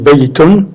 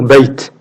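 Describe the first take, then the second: First: The word ends with the full '-un' ending. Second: The word stops on a bare final consonant. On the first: The reader continues without stopping. "si je dis Baytun" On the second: The reader pauses on this word. "on peut s'arrêter sur Bayt"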